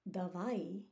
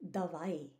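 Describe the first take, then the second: Both takes have the same delivery.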